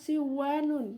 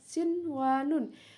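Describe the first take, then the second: First: The n merges nasally into the following w. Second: The n before the w is clearly pronounced. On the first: The speaker calls it wrong. "Tidak bisa dibaca uh, idgham bigunah" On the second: The speaker calls it right. "Jadi nunnya dibaca jelas"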